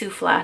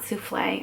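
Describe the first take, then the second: First: The word ends without an 'ay' vowel. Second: The word ends with an 'ay' vowel. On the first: The speaker calls it right. "or it's Souffla" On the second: The speaker calls it wrong. "not Soufflé. I always say that wrong"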